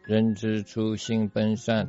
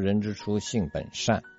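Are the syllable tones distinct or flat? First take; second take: flat; distinct. First: The syllables are said flat, without tones. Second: Each syllable has its own distinct tone. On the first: A foreign learner says it. The speaker calls it wrong. "他就是没有音调" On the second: A native speaker says it. The speaker calls it right. "我们说人之初性本善"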